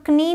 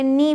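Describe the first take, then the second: First: कनी with a k sounded before n; wrong pronunciation. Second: नी starting straight on n; silent k. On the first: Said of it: "इसे हम कनी नहीं पढ़ते". (कनी में क बोलकर) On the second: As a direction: say नी as "nee", no k. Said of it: "इसे नी पढ़ते हैं". (नी में क चुप) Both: Shown as a demonstration.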